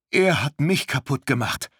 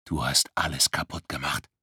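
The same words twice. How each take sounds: First: Higher, pained outburst; desperate retort. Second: Cold accusation. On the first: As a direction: fling it back in hurt. Luisa answers stranger desperately. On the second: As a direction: accuse her coldly and low. Icy stranger accuses Luisa. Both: Acted.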